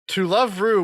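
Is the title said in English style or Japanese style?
English. It is said as English words, to love.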